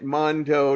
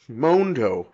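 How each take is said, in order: First: The first vowel sounds like 'ma'. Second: The first vowel sounds like 'mo'. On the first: The speaker calls it wrong. "I'm going to keep saying it" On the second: The speaker calls it right. "it's got a mo"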